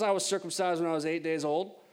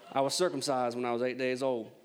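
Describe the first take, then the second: First: It is read in a plain, neutral accent. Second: It is read in a Southern American accent.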